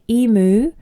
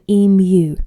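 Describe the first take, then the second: First: Emu is pronounced the American way. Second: Emu is pronounced the Australian way. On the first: The speaker calls it wrong. "Americans often say emu" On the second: The speaker calls it right. "we should call it an emu"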